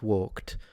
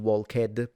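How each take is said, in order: First: The ending is a single syllable without an added sound. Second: The ending is said as a separate extra syllable. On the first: The speaker calls it right. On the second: The speaker calls it wrong.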